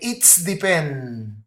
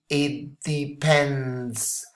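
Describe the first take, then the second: First: The S sound comes right after 'it'. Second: The S sound comes at the end of 'depends'. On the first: The speaker calls it wrong. "a lot of people move it here and they say it's depend. And that's totally wrong" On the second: The speaker calls it right. "pronunciation should be it depends. And the S should be sibilant here"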